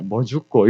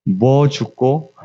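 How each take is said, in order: First: Quicker Busan dialect question; brief, lower Busan dialect attempt; Busan dialect retry. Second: Slow, drawn-out Busan question; low-key Busan dialect imitation, lingering. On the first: Shown as a demonstration. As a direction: try the short Busan dialect version. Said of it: "이거 부산 사투리로 어떻게 해야". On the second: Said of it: "부산 사투리로 말씀해".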